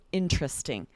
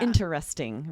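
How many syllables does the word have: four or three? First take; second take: three; four. First: The word is said with three syllables. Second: The word is said with all four syllables. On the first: The speaker calls it right. "making it three syllables" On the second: The speaker calls it wrong. "pronounce each syllable"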